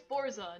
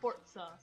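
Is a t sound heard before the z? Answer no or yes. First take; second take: No; Yes. First: The word has no t sound before the z. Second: The word has a t sound before the z. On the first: The speaker calls it right. "there's no T, it's Forza" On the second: The speaker calls it wrong. "not Forza"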